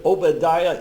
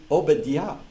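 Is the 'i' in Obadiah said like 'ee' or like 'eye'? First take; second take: eye; ee. First: The i is said like 'eye'. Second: The i is said like 'ee'. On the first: The speaker calls it wrong. "We're all pronouncing the word Obadiah incorrectly" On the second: The speaker calls it right. "that I is pronounced as long E"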